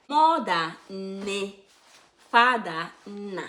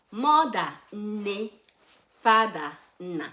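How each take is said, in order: Both takes have the same delivery.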